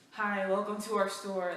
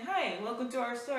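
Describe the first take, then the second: First: It is said in a sarcastic, grudging tone. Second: It is said in a plain, moderately friendly way. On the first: The greeter resents having to serve. The speaker calls it wrong. "don't be sarcastic at me" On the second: The greeter is being simply polite. The speaker calls it right. "I'm just saying"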